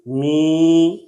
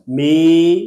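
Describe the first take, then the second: First: می with the long ee in the nose; nasalized vowel. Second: Said in the usual way. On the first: Shown as a demonstration. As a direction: draw out می nasally. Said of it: "صحیح اور غلط". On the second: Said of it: "پڑھیں گے صحیح اور غلط".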